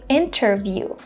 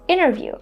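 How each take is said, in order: First: The T after the N is pronounced. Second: The T after the N is silent. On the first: "Instead of saying" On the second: "Americans will say"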